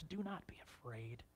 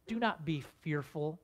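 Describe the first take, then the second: First: Hushed, breathy whisper of comfort. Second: Said in the usual way. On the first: Acted. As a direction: whisper it gently to calm them. Joseph comforts his frightened brothers.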